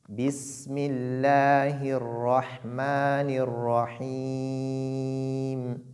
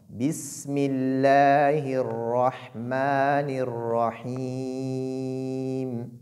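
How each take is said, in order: Both takes have the same delivery.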